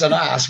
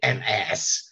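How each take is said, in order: First: The word is said in the speaker's own accent. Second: The word is said in an American accent. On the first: "we say here" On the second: "or as you Americans say"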